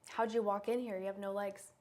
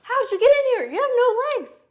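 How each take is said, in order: First: It is said plainly, without surprise. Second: It is said with a gasp, sounding surprised.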